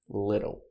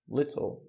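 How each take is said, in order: First: The middle T sounds like a quick soft D. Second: The middle T is pronounced as a crisp T.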